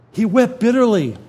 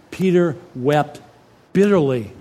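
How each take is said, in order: First: "wept" hit hard, the whole line higher and louder; emphatic repeat. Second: Said in the usual way. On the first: Acted. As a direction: drive "He wept bitterly" home to the congregation. Wiederholung mit Nachdruck.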